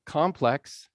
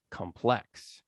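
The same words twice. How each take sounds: First: "complex" as COM-plex, falling; stress on first syllable. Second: "complex" as com-PLEX, weak first syllable; stress on second syllable. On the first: Teacher contrasting stress for class, "complex" stressed up front. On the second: Teacher contrasting stress for class, "complex" stressed at the end. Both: Shown as a demonstration. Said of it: "where we put the stress".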